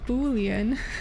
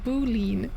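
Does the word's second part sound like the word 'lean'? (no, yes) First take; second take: no; yes. First: The second part does not sound like 'lean'. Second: The second part sounds like the word 'lean'. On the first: The speaker calls it right. "But it's a boolean" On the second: The speaker calls it wrong. "I thought that shit was pronounced boolean, like young lean"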